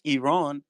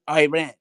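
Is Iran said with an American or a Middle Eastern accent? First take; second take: Middle Eastern; American. First: It is said with a Middle Eastern accent. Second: It is said with an American accent. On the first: "in my language with my accent" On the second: "you call Iran all the time"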